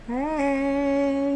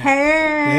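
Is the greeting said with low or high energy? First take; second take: low; high. First: It is said with little energy. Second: It is said with more energy.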